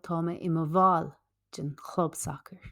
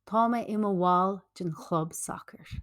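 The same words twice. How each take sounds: First: It is said in a Munster Irish accent. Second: It is said in a non-Munster Irish accent.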